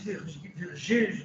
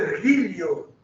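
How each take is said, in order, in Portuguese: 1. Usa a pronúncia do latim eclesiástico medieval. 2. Usa a pronúncia do latim clássico romano. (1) "talvez não se falasse Virgílio" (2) "mas sim o Ergílio"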